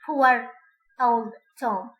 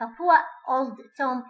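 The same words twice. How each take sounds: First: Put-on "poor old Tom" with a clear r after "poor", louder "poor"; linking r in poor old Tom. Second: Put-on "poor old Tom" with no r after "poor", slow; poor old Tom without r. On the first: Teacher contrasts the harder version with linking r. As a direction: stress the r in "poor" before "old". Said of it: "than saying". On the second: Teacher shows the easier RP form without linking r. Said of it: "is easier". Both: Shown as a demonstration.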